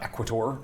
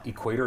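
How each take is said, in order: First: The name is said in a fancy, showy way. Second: The name is said in a plain, ordinary way. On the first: The speaker calls it wrong. "It's not Equator" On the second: The speaker calls it right. "now I am saying it properly"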